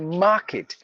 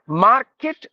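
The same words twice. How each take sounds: First: The R is silent in the word. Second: The R is pronounced in the word. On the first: The speaker calls it right. "So you have to say market" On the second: The speaker calls it wrong. "no, because the R is mute"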